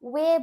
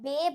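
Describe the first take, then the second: First: The word begins with a 'w' sound. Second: The word begins with a 'b' sound. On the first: The speaker calls it right. "ওয়ে বলছি" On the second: The speaker calls it wrong. "এই জন্য আমরা বে ভাগে বলছি না"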